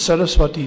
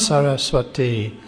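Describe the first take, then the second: First: The final i vowel is cut short. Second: The final i vowel is held long. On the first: The words form one compound. The speaker calls it right. "It is a samasa. So it's a short I" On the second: The words are taken as two separate words. The speaker calls it wrong. "it's not Saraswati"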